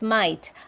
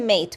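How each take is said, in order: First: The vowel sounds broad, close to 'might'. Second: The vowel is a plain 'ay' sound. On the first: "the Australians have very strong accent" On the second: "They they don't say mate"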